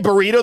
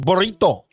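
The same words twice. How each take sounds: First: The R is said as a plain English R. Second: The R is rolled with a trill. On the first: "They don't say burrito" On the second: "people roll their R's when they say Mexican things like burrito"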